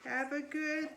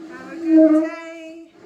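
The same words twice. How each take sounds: First: Said in the usual way. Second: Much louder, higher farewell; loud cheerful shout. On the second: Real, not acted. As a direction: call out goodbye to everyone.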